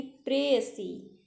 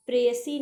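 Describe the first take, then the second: First: प्रेयसी slowly as 'pre-ya-see'; separated syllables. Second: प्रेयसी squeezed to 'presi', louder; run-together syllables. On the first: (प्रेयसी धीरे, खींचकर) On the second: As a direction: say प्रेयसी in two quick syllables. (प्रेयसी को जल्दी में 'प्रेसी' जैसा) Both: Shown as a demonstration. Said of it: "प्रेयसी नहीं".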